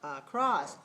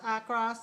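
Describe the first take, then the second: First: The second syllable is higher than the first. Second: Both syllables are on the same pitch. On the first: "low, high" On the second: "same tone"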